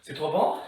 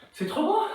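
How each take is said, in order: First: Quiet. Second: Much higher playful question; high teasing question. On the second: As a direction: tease them, pitched way up. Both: Real, not acted.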